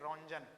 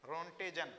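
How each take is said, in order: First: रॉन्जन spoken Ron-jan, without the t; Ronjan pronunciation. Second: रॉन्टेजन said as Ron-te-jan, three syllables with a retroflex t; Rontgen pronunciation. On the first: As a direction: say रॉन्जन as the teacher's own version, Ron-jan. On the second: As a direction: repeat रॉन्टेजन as other people say it, Ron-te-jan. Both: Shown as a demonstration. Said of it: "बहुत से लोग रॉन्टेजन बोलते हैं".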